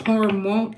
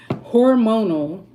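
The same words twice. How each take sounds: First: "hormone" said instead of "hormonal", cut short; stumbling out "hormone" with the last syllable dropped; fumbled word. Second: "Hormonal" said slowly, every syllable pronounced, with a laugh; slow, deliberate "Hormonal" with the rise at the end; careful correction. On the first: Real, not acted. Vlogger tripping over the word "hormonal", saying "hormone". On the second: Shown as a demonstration. Vlogger finally getting the word "Hormonal" right, slowly and deliberately. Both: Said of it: "I can't even say the damn word".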